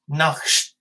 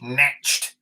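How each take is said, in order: First: The word ends with a throaty, raspy sound. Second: The word ends with an English tch sound. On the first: "at least I'm attempting the European on it" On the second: "if I pronounced it like a right Brit"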